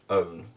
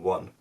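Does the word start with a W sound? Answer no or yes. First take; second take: no; yes. First: The word starts with a vowel, no W. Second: The word starts with a W sound. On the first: This is the older pronunciation. "show it pronounced as own" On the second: This is the modern pronunciation. "pronounced with a W at the start, as in one"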